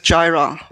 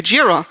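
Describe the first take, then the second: First: "Jira" said as JAI-ra, rhyming with Myra; team's pronunciation. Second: "Jira" said as JEE-ra, with an ee vowel; other companies' pronunciation. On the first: Showing colleagues' habit at work, "Jira" as JAI-ra. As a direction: say "Jira" with an eye vowel first. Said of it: "not everybody pronounces English like it should be pronounced". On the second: Quoting other companies' way, "Jira" as JEE-ra. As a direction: say "Jira" starting like "jeer". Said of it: "In other companies, they may say Jira". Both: Shown as a demonstration.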